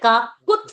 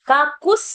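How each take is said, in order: First: A clear t sound is heard, giving kakut. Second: The t sound is dropped, giving kakus. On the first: The speaker calls it right. "Kakut you have to say" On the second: The speaker calls it wrong. "Kakus not to say"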